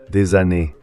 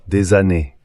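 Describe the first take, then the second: No difference in how they are said.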